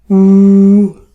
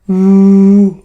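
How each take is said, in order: The two takes are said the same way.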